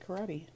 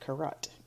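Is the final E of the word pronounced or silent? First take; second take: pronounced; silent. First: The final E is pronounced. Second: The final E is silent. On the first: The speaker calls it right. "in this case, you actually say karate" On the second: The speaker calls it wrong. "Usually it's a silent E, so we would say like karat"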